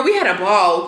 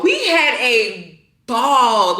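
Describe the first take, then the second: First: Said in the usual way. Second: "We had a ball" stretched out slowly, word by word; slow right down and savour "ball"; drawn-out emphasis. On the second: Real, not acted. Repeats the phrase for emphasis.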